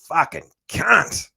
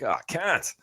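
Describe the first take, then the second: First: It sounds harsh and angry. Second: It sounds warm and grateful.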